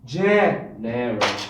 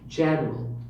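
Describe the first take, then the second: First: The word is said in an exaggerated, unnatural way. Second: The word is said in a natural, relaxed way. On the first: The speaker calls it wrong. "you don't say general. You don't do it that way" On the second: The speaker calls it right. "Do it in a natural way"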